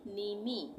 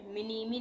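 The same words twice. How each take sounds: First: "नीमी" starting straight on N, drawn out; silent M. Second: "मिनीमी" with the M sounded before नी; wrong reading with M. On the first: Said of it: "इसमें एम silent हो जाएगा". ("नीमी", शुरू का म silent, धीरे से) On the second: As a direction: say "मिनीमी", starting on an audible मि. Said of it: "नहीं पढ़ेंगे". ("मिनीमी", शुरू में म की आवाज़ के साथ) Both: Shown as a demonstration.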